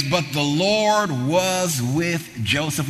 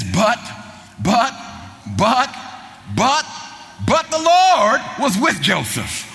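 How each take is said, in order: First: Slow savoring. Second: Repeated buts climbing higher, ending in a slow shout; building emphasis. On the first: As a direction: let the phrase sink in slowly. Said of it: "this phrase". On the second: Preacher to congregation, building to a slow shout. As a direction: build each but up to a shouted Lord. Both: Acted.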